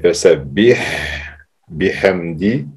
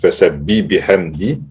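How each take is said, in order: First: The H at the end of the first word is pronounced. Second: The H at the end of the first word is dropped. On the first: The speaker calls it right. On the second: The speaker calls it wrong. "Il y a beaucoup de personnes qui disent"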